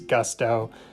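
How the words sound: It is said with an English short 'u' vowel. "we pronounce it in English with that short U"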